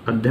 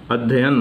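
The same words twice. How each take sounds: First: The middle 'y' sound is single and short. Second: The middle 'y' sound is held doubled. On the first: The speaker calls it wrong. "अध्ययन नहीं" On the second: The speaker calls it right. "अध्ययन है शुद्ध उच्चारण इसका"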